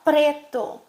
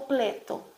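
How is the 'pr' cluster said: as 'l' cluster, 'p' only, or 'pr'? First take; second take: pr; l cluster. First: The cluster is said fully with the r. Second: The r is replaced with an l sound. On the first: The speaker calls it right. "ela vai falar preto" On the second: The speaker calls it wrong. "ou pleto"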